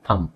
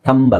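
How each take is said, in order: First: The word ends without any b sound. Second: A b sound is pronounced at the end. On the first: The speaker calls it right. "ಬಿ ಬೇಡ, it's just ಥಂಬ್" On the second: The speaker calls it wrong. "ಥಂಬ್ ಅಲ್ಲ"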